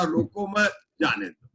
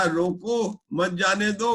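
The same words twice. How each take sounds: First: रोको मत as one phrase, then जाने दो; pause after मत. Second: रोको set apart, then मत जाने दो as one phrase; pause after रोको. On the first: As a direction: break after मत to allow going. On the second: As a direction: break after रोको to forbid letting go. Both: Shown as a demonstration. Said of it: "कोई रोक लेगा और कोई जाने देगा".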